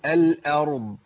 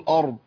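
First: The hamza is light and the ra is heavy. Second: The hamza is heavy along with the ra. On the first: The speaker calls it right. "ارقق الهمزه لكن افخم الراء" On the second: The speaker calls it wrong. "ولا افخم الهمزه معاها، اقول الارض، ما ينفعش"

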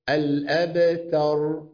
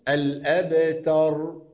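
The two takes are said the same way.

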